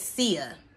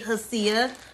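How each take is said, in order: First: The name begins with an S sound. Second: The name begins with a sounded H. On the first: The speaker calls it right. "the H is silent. So I'm going to pronounce it SIA" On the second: The speaker calls it wrong. "it looked like it say HSIA"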